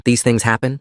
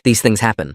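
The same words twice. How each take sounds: First: "These things happen?" echoed with a rising, disbelieving tune; bitter echo. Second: Said in the usual way. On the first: A narrator's reading. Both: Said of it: "The words tasted bitter".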